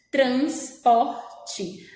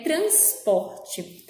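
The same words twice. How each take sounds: First: TRANSPORTE broken into trans, por, te; syllable split. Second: Said in the usual way. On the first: Shown as a demonstration. Teacher showing the syllables, transporte broken into three parts. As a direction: say transporte piece by piece with gaps. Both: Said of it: "No trans".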